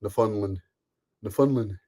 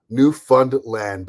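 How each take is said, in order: First: "Newfoundland" run together quickly as New-fun-lun; a clipped local "Newfoundland" with the stress up front. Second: "Newfoundland" said slowly, NEW-found-LAND with every syllable clear; a drawn-out "Newfoundland" with the last syllable LAND stressed; "Newfoundland" the way an American says it. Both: Shown as a demonstration. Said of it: "I said it like that on purpose".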